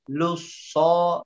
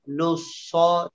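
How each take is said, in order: No difference in how they are said.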